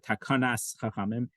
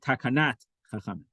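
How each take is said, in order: First: The first word ends with an s sound. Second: The first word ends with a t sound. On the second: "They would say"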